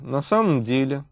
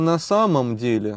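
First: Some sounds of the phrase are dropped. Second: All the sounds of the phrase are pronounced. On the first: "можно говорить" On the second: "вместо"

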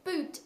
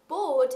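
First: It is pronounced the English way. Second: It is pronounced the German way. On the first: It means a type of shoe. "which is a type of shoe in English" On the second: It means a ship. "if you pronounce it boot, it means ship in German"

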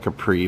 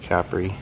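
First: It is said the brand's English way. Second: It is said the Italian way. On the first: "I think they call it a Capri" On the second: "people in Italy pronounce it Capri"

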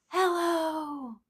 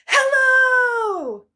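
First: It is said very quietly. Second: It is said very loudly.

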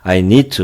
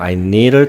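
First: The word 'to' is clearly pronounced. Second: The word 'to' is reduced to a faint vowel. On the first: "I need to로 가겠습니다" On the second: "빨리 날린 발음을 하면 I need가 돼요"

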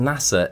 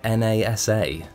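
First: It is said as a single word. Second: Each letter is said separately. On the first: The speaker calls it right. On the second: The speaker calls it wrong.

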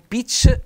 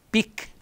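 First: The word ends with a soft ch sound. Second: The word ends with a hard k sound. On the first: The speaker calls it wrong. "non pitch" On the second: The speaker calls it right. "la pronuncia dura della C"

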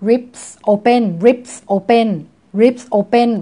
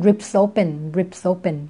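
First: The two words are said separately. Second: The two words run together quickly.

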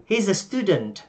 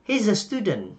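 No difference in how they are said.

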